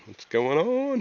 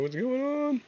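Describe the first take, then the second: First: Said in the usual way. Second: High voice cracking on the words. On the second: Real, not acted. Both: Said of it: "hear my voice cracking".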